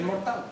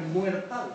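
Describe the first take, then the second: First: Said in the usual way. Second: "muertal" with ue instead of o; wrong diphthongised form. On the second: Shown as a demonstration. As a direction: say the non-word "muertal", muer-TAL. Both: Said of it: "no es muertal".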